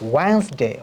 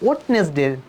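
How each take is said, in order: First: The middle d sound is dropped. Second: The middle d sound is pronounced clearly. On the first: The speaker calls it right. "It's will be হবে ওয়েন্সডে" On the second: The speaker calls it wrong. "আমরা বলি ওয়েডনেসডে, no"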